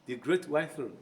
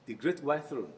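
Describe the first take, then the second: First: The t at the end of 'white' is dropped. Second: The t at the end of 'white' is dropped.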